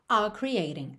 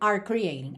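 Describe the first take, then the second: First: The r in 'are' is dropped and linked. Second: The r in 'are' is clearly pronounced. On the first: The speaker calls it right. "no inglês britânico eu posso dizer are ... fica mais prático aqui para juntar" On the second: The speaker calls it wrong. "do que"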